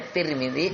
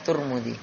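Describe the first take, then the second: First: The first vowel is an 'i' sound. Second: The first vowel is a 'u' sound. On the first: "boleh juga dengan ya kasrah" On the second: "Boleh dengan dhamma ta'nya"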